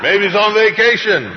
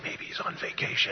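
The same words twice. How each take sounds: First: High, loud mocking taunt; sarcastic high-pitched shout; shouted sarcasm. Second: Voiceless divine whisper; hushed, sly feeding of a line; whispered prompt. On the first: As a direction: yell the jibe across to the crowd. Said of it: "sarcasm and cynicism in this". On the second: Acted. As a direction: whisper the joke as a secret cue. God whispering lines to Elijah.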